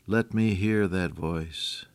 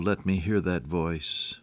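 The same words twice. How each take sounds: First: Slower, softer echo; quiet yearning repeat; longing plea. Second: Slow, softer yearning; tender, slow prayerful wish; longing plea. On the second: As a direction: ask slowly, with longing. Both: Real, not acted.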